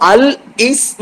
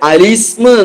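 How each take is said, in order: First: The l is separated from the following vowel. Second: The l runs straight into the following vowel. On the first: The speaker calls it wrong. "അൽ ഇസ്മ എന്ന് പറയാതെ" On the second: The speaker calls it right. "അലിസ്മ എന്ന് പറയാ"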